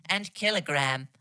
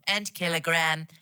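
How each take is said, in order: Both takes have the same delivery.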